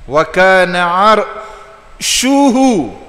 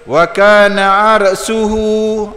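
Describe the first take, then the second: First: The middle consonant is a hushing sh sound. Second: The middle consonant is a hissing s sound. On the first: The speaker calls it right. "huruf tafashi ... shin" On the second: The speaker calls it wrong. "ini baca ikut dang orang panggil"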